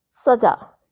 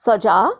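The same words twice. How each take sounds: First: सजा with ज़ as a z, like "saza"; nukta z sound. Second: सजा with a plain ज, like "saja"; plain j sound. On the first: Teacher contrasting सजा with a z sound. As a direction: say सजा with a buzzing z in the middle. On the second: Teacher contrasting सजा with a plain j. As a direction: say सजा with a hard j in the middle. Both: Shown as a demonstration. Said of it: "जैसे आपको शब्द जोड़े दिए गए हैं".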